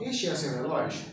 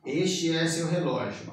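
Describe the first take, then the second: First: It is said with question intonation. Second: It is said with statement intonation. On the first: Is this your watch? "Na pergunta eu falo" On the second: This is your watch. "No português eu falo assim"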